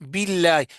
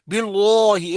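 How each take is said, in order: First: The L sound is light and thin. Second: The L sound is heavy and full. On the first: The speaker calls it right. "इसलिए इसको बारीक पढ़ेंगे।" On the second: The speaker calls it wrong. "इस तरह नहीं पढ़ेंगे"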